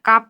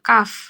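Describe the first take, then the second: First: It ends with both lips closed, a p sound. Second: It ends with air through teeth and lip. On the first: The speaker calls it wrong. "দুই ঠোঁট আটকে ফেলা যাবে না। কাপ বলা যাবে না।" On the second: The speaker calls it right. "বাতাস বের হবে।"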